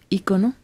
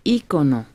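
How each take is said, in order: First: The stress is on the second syllable. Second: The stress is on the first syllable. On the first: The speaker calls it right. "sino ícono" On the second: The speaker calls it wrong. "no se dice ícono con acento"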